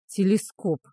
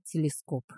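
First: Drawn-out, derisive echo; mocking drawl. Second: Said in the usual way. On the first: A narrator's reading. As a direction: draw the word out to mock a friend. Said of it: "насмешливо протянул Гриндир". (насмешливо, протяжно)

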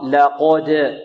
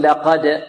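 First: لقد with light ل, full heavy ق, bounced د; correct heavy qaf. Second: لقد with a weak, light ق after the ل; under-thicken the ق of لقد; wrong, thin qaf. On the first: Teacher corrects the error, heavy qaf. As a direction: thicken only the ق of لقد. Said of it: "وهذا خطأ". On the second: Teacher quotes others' mistake, thin qaf. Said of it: "لا يفخم القاف جيدا". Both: Shown as a demonstration.

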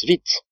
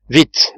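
First: Plus bas. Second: Pressé. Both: A narrator's reading. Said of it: "répondit Cyrus Smith".

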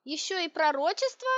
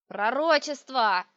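First: Higher, rising disbelieving question; incredulous. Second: Put-on slow, loud old witch's yell. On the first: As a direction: question it as one absurdity too many. Heroine reacts in disbelief. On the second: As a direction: bellow it drawn out like a crazed crone. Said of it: "заорала старуха". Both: A narrator's reading.

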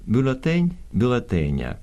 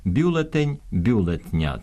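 First: Said in the usual way. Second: Бюлетня said with the vowel dropped, slowly, as the error; wrong pronunciation demo. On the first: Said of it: "в запозичених словах такого чергування не відбувається". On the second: Shown as a demonstration. Professor demonstrates the wrong бюлетня for radio listeners, slow and deliberate. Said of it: "ставлять неправильний наголос, вимовляють з випадної голосної".

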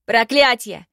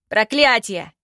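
First: Loud furious curse; helpless rage. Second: Loud furious curse, falling; helpless rage. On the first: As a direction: spit the curse in helpless fury. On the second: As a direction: repeat the curse in helpless fury. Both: Acted. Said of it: "в бессильной ярости".

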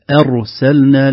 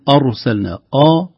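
First: Slow أرسلنا opened on a thin "e"-like a; light hamza. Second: أرسلنا opened on a dark, back "aw"-like a; heavy hamza. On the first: Teacher models correct word, light hamza. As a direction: start أرسلنا thin and front before the ر. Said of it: "آ أرسلنا فيها ترقيق". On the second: Teacher shows what not to say, heavy hamza. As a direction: thicken the first vowel of أرسلنا. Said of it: "هذا التفخيم". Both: Shown as a demonstration.

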